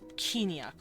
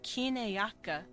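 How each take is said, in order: First: The syllables are merged into a shorter word. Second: Every syllable of the word is said. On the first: "to kiniak over time" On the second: "it would go from kineyaka"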